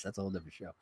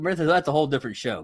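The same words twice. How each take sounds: First: Muttered aside. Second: Said in the usual way. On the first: Real, not acted. Repeats the aside under his breath.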